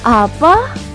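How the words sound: The word is said in a hopeful voice.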